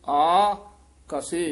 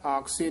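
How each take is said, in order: First: It is split into two separate parts. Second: It is run together as one word. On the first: The speaker calls it right. "ਇਹ ਵੱਖਰਾ ਪਾਠ ਹੀ ਉਚਾਰਨ ਕਰਨਾ ਹੈ" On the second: The speaker calls it wrong. "ਆਕਸੇ ਨਹੀਂ ਕਹਿ ਦੇਣਾ"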